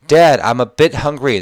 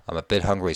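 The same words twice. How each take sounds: First: First reading. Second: Said in the usual way. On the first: Shown as a demonstration. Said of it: "repeated softer".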